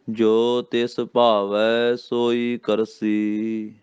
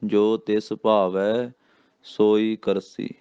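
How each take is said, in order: First: Very slow chant, stretching ਭਾਵੈ; very slow recitation. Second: ਜੋ ਤਿਸ ਭਾਵੈ rising, then ਸੋਈ ਕਰਸੀ falling to a stop; pause after ਕਰਸੀ. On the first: Teacher showing where the verse pauses, very slowly. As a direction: linger on every syllable. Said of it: "ਕਰਸੀ ਤੇ ਵਿਸਰਾਮ". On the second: Teacher marking the ਵਿਸਰਾਮ pause for pupils. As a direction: break the line in two at ਭਾਵੈ. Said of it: "ਇੱਥੇ ਕਰਸੀ ਤੇ ਵਿਸਰਾਮ". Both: Shown as a demonstration.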